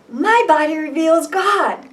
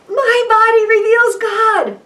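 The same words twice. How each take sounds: First: It is said in a calm, plain way. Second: It is said with more enthusiasm and energy.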